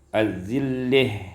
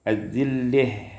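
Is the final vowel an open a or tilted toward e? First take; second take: tilted e; tilted e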